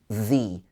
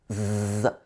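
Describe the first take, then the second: First: The first sound is a th sound. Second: The first sound is a th sound.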